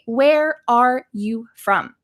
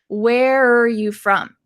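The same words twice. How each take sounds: First: The word 'are' is pronounced fully and clearly. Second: The word 'are' shrinks to a quick 'er' sound. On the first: "You might say, where are you from? But native speakers will not say this as often" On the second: "It kind of sounds like where plus er, where, instead of are"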